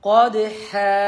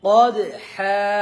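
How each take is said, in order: Both takes have the same delivery.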